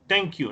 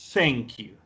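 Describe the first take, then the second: First: The first sound is a plain t stop. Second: The first sound lets air pass the teeth. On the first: The speaker calls it wrong. "Uno no pronuncia thank you" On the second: The speaker calls it right. "dejando pasar aire así entre la lengua y los dientes de arriba"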